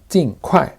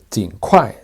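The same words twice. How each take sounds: First: The first syllable has a sharp falling tone. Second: The first syllable has a low dipping tone. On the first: This is the usual form in practice. "se suelen pronunciar más con el cuarto tono" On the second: This is the official form. "técnicamente se debe pronunciar con el tercer tono"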